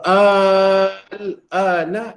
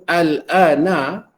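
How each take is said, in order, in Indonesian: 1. Vokal pembukanya panjang. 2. Vokal pembukanya pendek. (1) "Kalau A tu dipanjangkan, ia bermaksud pertanyaan" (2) "a itu bermaksud perkabaran"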